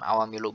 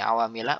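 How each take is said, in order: First: The word ends in a u vowel. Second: The word ends in an a vowel. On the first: The speaker calls it wrong. "bukan awamilu" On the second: The speaker calls it right. "kenapa ini awamila"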